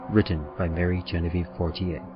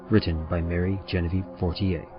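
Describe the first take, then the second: No difference in how they are said.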